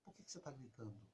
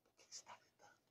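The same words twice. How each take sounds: First: Soft and low, calmly asking; quiet reply. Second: Whispered and eerie. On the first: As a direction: answer the shouting very softly. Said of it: "Lá em casa eu fazia assim". (pergunta baixinha, calma) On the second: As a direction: whisper it back to scare them. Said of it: "é assustador isso pra eles". (sussurro assustador) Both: Retold or imitated.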